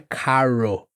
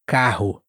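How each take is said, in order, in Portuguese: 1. O R é enrolado, parecido com o inglês. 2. O R é um som gutural forte. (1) "Não é carro" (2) "mais vibrante ou gutural"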